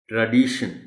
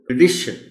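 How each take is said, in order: First: The first vowel is a long 'ah' sound. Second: The first vowel is a short 'uh' sound. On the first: The speaker calls it wrong. "आ sound के साथ नहीं बोलना ... बिल्कुल गलत हो जाए" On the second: The speaker calls it right. "इसको अ sound के साथ बोलना है ... डी पर स्ट्रेस आएगा"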